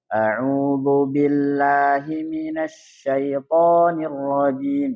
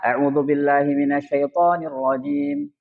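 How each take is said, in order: First: It is recited at a slow, careful pace. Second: It is recited at a fast pace. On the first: "Kalau yang tahqiq" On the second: "Kalau yang cepat gimana?"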